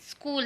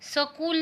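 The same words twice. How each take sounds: First: The s joins the k with no vowel. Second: A vowel is heard between the s and k. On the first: The speaker calls it right. "स जो होता है वो आधा होता है" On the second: The speaker calls it wrong. "स्कूल नहीं है"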